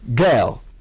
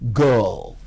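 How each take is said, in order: First: The vowel sounds like an open 'eh'. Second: The vowel sounds like a central 'er'. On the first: The speaker calls it wrong. "The sound eh in Nigerian and other African languages is commissioned, and girl comes out as girl" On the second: The speaker calls it right. "instead of the correct girl"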